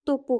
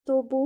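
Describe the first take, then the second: First: তপু with an unvoiced p; correct P form. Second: তবু with a voiced b; wrong B form. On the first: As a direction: keep the p hard in তপু. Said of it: "হবে". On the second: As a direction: put a b in the middle of তবু. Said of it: "না". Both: Shown as a demonstration.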